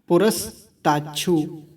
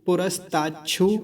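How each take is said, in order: First: There is a short pause after the first part. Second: The word is said smoothly without any pause. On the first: It is split up for understanding. "पुरस पे रुकेंगे थोड़ा सा।" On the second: It is recited in continuous flow. "जब हम प्रवाह से मंत्र को बोलेंगे"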